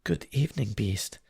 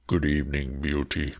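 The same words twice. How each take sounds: First: Put-on high, sweet young girl's greeting; sweetly. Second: Low, deep beast voice; a monster trying to sound courteous; terrifying beast. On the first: Beauty greets the beast, sweet and high. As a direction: brave sweetness masking her fear. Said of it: "Beauty answered sweetly". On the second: Acted. Beast greets Beauty in a low, heavy voice. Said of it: "in a tone that might have struck terror".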